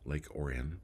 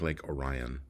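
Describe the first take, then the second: First: Orion is said the local Michigan way. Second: Orion is said the way its spelling suggests. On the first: This is how people in Michigan say the name. "they pronounce it Orion" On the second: This is how an outsider would read the name. "it looks like Lake Orion"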